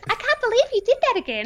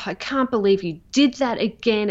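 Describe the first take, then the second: First: It is said in a silly, cartoonish voice. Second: It is said in a sarcastic, snarling voice. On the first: The critic is stripped of its power. "Change it to something that's really quirky" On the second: It is a harsh inner critic. "It's a very sarcastic, snarly, lip curly type of voice"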